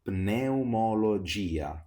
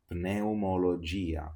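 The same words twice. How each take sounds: First: Pneumologia slow, with the P said before the N; teacher modelling the P in Pneumologia; clear slow P. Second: Pneumologia said as neumologia, no P; learner-style Pneumologia without the P; P dropped. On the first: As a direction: sound the P in Pneumologia, slowly. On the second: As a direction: leave out the P in Pneumologia. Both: Shown as a demonstration. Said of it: "Let's now read these words".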